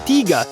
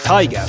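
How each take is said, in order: First: The word has its native local-language pronunciation. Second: The word has its familiar anglicized pronunciation. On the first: "I'm now saying Tiga" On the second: "instead of Tiger"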